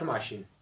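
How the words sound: It is said with a Pashto-style accent. The speaker calls it wrong. "not ماشین ... هیڅ کله انګلیسي په پښتو کې مه وایئ"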